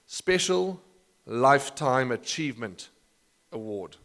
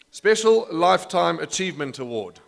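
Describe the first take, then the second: First: The phrase is said slowly and deliberately. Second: The phrase is said at a normal speed.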